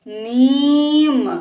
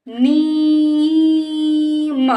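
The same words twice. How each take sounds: First: नीम joined, shorter rising ee; blended word. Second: नीम with very long level नी, then म; sounded out. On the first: Teacher blends the word for a child, joined up. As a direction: run नीम into one word. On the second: Teacher sounds out the word for a child, stretched. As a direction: stretch नीम apart slowly. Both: Shown as a demonstration. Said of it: "इस तरह से बेटा हम शब्दों को".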